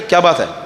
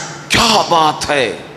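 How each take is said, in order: First: It sounds like a sharp scolding. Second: It sounds surprised and amazed.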